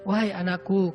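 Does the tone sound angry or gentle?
gentle. It is said gently and calmly.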